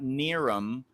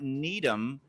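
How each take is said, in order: First: The middle consonant is a clear R. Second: The middle consonant is a clear D. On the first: "not Niram" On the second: "it's not Needham"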